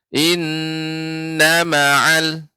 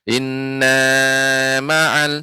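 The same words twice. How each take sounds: First: The 'na' syllable is kept short. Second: The 'na' syllable is drawn out long. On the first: The speaker calls it right. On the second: The speaker calls it wrong. "Nenek baca panjang nanya"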